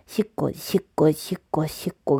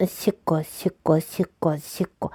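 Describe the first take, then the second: No difference in how they are said.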